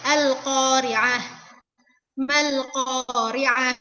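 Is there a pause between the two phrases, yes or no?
yes. There is a pause between the two phrases.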